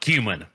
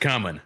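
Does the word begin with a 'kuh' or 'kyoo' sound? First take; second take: kyoo; kuh. First: The first syllable sounds like 'kyoo', like the letter Q. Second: The first syllable sounds like 'kuh', without a 'y'. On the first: The speaker calls it wrong. "not cumin. ... you put a Q in that motherfucker" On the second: The speaker calls it right. "if it's spelled C U M I N, it should be pronounced cumin"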